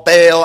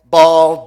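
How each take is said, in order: First: "Baal" said as "bale", with a long ay; speaker's own pronunciation. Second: "Baal" said as "ball", with an open aw; alternative pronunciation. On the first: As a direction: say "Baal" to rhyme with "fail". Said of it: "but I say Baal". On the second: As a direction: say "Baal" to rhyme with "hall". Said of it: "different ways of saying it". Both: Shown as a demonstration.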